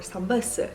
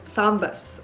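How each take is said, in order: First: It is said with a Korean pronunciation. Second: It is said with a non-Korean pronunciation.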